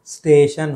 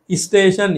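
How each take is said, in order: First: स्टेशन starting straight on "st"; no added vowel. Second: स्टेशन said as "isteshan"; added vowel. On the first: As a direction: say "steshan" for स्टेशन. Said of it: "होना चाहिए". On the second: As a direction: put an i before स्टेशन. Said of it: "ई का प्रयोग गलत है". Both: Shown as a demonstration.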